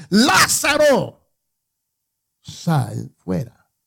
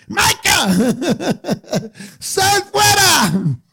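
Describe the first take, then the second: First: Slow reverent summons, the name stretched high; Jesus calling out. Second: Much higher, loud mock shout, laughing in between; a sister playing God to wake her brother; hammed-up booming wake-up call with giggles. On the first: Acted. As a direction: call the dead man out of the tomb. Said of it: "gritó con fuerte voz y dijo". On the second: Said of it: "ella viene con la voz de Dios".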